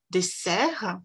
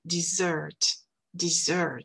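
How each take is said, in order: First: French dessert with a hissed s sound; son S français. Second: English dessert with a buzzing z sound; son Z anglais. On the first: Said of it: "on dit se". (dessert à la française, avec le son se) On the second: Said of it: "en anglais, on dit z". (dessert à l'anglaise, avec le son ze) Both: Shown as a demonstration.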